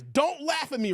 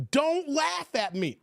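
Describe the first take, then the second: First: Said in the usual way. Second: Higher, slow "Don't laugh at me"; insistent plea. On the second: Real, not acted. Streamer to laughing viewers, insisting with slow, high "laugh". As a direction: draw out "Don't laugh" in a raised pitch.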